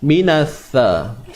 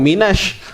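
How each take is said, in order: First: The consonant is a 'th' with tongue tip out. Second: The consonant is a hissing 'sh' sound. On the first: The speaker calls it right. "Huruf tha ni kena keluarkan hujung lidah sikit je" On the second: The speaker calls it wrong. "kamu terbaca minasyamarat"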